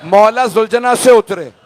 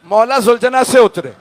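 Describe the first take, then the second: No difference in how they are said.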